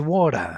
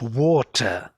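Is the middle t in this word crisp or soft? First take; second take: soft; crisp. First: The middle t is soft and reduced. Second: The middle t is a crisp, sharp t. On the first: This is how American English says it now. "They say water. This t became water, like totally soft" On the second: This is the older way of saying it. "you don't say anymore in the American English"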